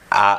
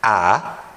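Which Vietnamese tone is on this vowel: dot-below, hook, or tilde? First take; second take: dot-below; hook. First: The vowel carries the dot-below tone, short and firm. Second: The vowel carries the hook-mark tone. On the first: "A dengan titik di bawah" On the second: "A dengan nada koma"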